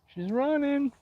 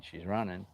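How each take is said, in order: First: Very high sing-song falsetto echo; mock-squeaky playful repeat. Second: Said in the usual way. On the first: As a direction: jump way up into a silly high voice.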